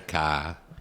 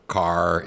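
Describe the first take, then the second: First: The final R sound is softened away. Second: The final R sound is clearly pronounced.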